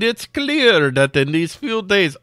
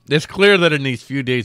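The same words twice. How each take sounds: First: It is spoken with a put-on Russian accent. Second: It is spoken in the speaker's plain accent.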